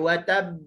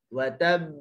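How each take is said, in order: First: The final b is pressed with excessive force. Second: The final b is released lightly and naturally. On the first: The speaker calls it wrong. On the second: The speaker calls it right.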